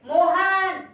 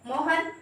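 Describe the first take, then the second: First: The o vowel is drawn out very long. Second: The o vowel is said at normal length. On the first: The person is standing far away. "ओ की मात्रा को आप थोड़ा सा और बढ़ाओगे" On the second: The person is standing close by. "आप बुलाओगे मोहन इधर आइए"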